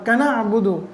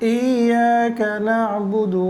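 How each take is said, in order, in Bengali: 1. শব্দগুলো তাড়াহুড়া করে একসাথে জুড়ে পড়া হয়। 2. শব্দগুলো ধীর ও সমানভাবে পড়া হয়। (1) "এরকমভাবে খুব বেশি তাড়াহুড়া করেও আমরা পড়ব না" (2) "আমরা খুব বেশি ব্যবধানও করব না"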